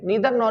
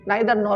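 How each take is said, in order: First: Neither has an ee vowel sound. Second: Neither has an eye vowel sound. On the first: "नीदर nor भी बोल सकते हैं" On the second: "नाइदर nor भी बोल सकते हैं"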